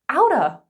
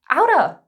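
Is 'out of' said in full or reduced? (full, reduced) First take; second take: reduced; reduced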